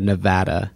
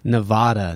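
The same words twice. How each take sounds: First: The middle vowel is like the 'a' in attitude. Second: The middle vowel is unlike the 'a' in attitude. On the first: This is how residents say it. The speaker calls it right. "So the A is like attitude" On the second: This is how outsiders say it. The speaker calls it wrong. "No one likes that pronunciation"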